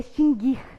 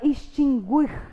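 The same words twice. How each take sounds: First: The u after the g is silent. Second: The u after the g is pronounced. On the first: The speaker calls it right. "O certo é extinguir. O não é pronunciado" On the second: The speaker calls it wrong. "Pronunciando o errado"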